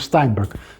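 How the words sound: The name is said in an American way. "the standard American pronunciation"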